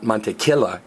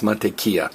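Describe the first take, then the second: First: The double L is sounded like an English L. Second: The double L is sounded like an English Y. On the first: The speaker calls it wrong. "it's not mantequilla" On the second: The speaker calls it right. "that double L is pronounced as a Y"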